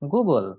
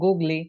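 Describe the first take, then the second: First: The word ends on the l sound. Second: The word ends with an added ee vowel. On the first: The speaker calls it right. "এটার উচ্চারণ হচ্ছে" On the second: The speaker calls it wrong. "এখান থেকে গুগলি"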